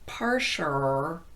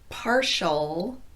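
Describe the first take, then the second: First: The final L sounds more like er. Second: The final L is a dark ul sound.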